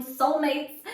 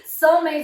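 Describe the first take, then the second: First: Said in the usual way. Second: Higher and louder joyful exclamation; excited. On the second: Real, not acted. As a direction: burst out with delight. Repeats soulmates with excitement.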